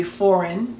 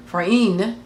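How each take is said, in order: First: "foreign" with the weight on FOR; English-style "foreign", stressed at the front; stress on first syllable. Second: "foreign" as for-EIGN, ending drawn out; Hebrew-style "foreign", stressed on the latter part; stress on last syllable. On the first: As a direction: hit the first part of "foreign", FOR-eign. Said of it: "emphasis would be on the first part". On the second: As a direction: push the weight onto the end of "foreign". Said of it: "emphasis would be on the latter part". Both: Shown as a demonstration.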